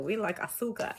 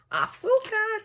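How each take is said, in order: First: Said in the usual way. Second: AZÚCAR sung out very high and louder; celebratory cry. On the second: Pretend. Cuban tarot reader celebrating sugar, high whooped Azúcar.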